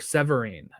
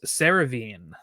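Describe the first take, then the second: First: The name sounds like Severine, with v before r. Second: The name sounds like Seravine, with r before v. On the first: The speaker calls it right. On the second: The speaker calls it wrong.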